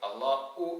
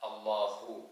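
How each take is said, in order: First: The middle consonant is a glottal stop. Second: The middle consonant is a clear h. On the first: The speaker calls it wrong. "ഹംസയായി ഉച്ചരിച്ച് ... എന്നല്ല" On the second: The speaker calls it right. "ഹാ തന്നെ വേണം"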